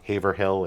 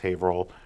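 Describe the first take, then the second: First: It is the outsider's pronunciation of Haverhill. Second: It is the local New England pronunciation of Haverhill.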